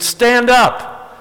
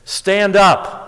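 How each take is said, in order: First: Much higher, emphatic repeat; insistent call. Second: High, measured call to a friend; retold call across the water. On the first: Retold or imitated. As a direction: call it out for someone who didn't hear. Repeats punchline to friend who misheard. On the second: Friend's punchline answer from shore.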